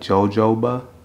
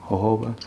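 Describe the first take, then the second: First: It is read as plain English spelling. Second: It is said with a Spanish-style pronunciation. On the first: The speaker calls it wrong. "looks like jojoba" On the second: The speaker calls it right.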